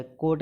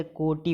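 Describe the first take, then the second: First: कोट ending on a bare t; wrong, no final vowel. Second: कोटि as "ko-ti"; final i. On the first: Teacher showing the error, one-syllable कोट. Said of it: "गलत है". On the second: Teacher correcting students, two-syllable कोटि. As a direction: sound the i closing कोटि. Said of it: "होता है". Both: Shown as a demonstration.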